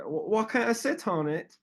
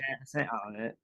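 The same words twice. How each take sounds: First: High-pitched mock Australian accent; put-on Australian girl voice. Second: Australian accent placed back in the throat; softer, throaty mock Australian. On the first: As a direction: imitate an Aussie asking, pitched well up. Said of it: "that was a good accent". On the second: Shown as a demonstration. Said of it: "more like back of your throat".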